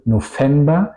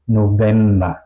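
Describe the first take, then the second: First: "November" wrongly said with an f in the middle; V como F, incorrecta. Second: "November" with a voiced v in the middle; V sonora. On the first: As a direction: say "November" as "no-femba". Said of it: "Tampoco digo November". ("November" mal dicho, con F) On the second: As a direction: say "November" as "no-vemba". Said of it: "digo November". ("November" bien dicho, con V sonora) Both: Shown as a demonstration.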